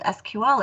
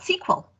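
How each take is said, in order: First: It is spelled out as three separate letters. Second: It is said as one word, sequel. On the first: This is the current name of the language. "it wasn't called S Q L" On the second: This is the original name from when it was developed. "it was called S Q L. Um, S Q L stood for Structured English Query Language"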